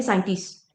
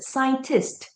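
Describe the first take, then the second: First: "scientist" said loosely with the final T dropped; not articulated. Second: "Scientist" with a crisp final T; clearly articulated. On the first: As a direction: let "scientist" trail off without its last T. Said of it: "Again, not articulated". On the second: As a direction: land the final T of "Scientist" sharply. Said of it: "The T sound at the end". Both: Shown as a demonstration.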